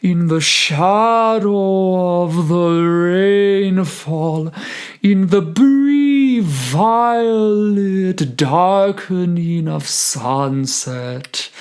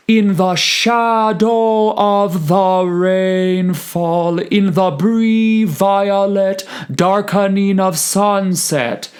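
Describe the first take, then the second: First: Slow, higher, shaped by word stress; natural word stress. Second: Every syllable hit equally, louder; even stress. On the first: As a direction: follow the word stress gently. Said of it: "drawn those little lines ... for the word stress". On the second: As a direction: give each note equal weight. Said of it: "treating every eighth and sixteenth equally". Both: Shown as a demonstration.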